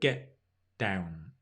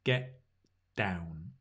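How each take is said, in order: First: The T in get is a glottal stop. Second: The T in get is a glottal stop.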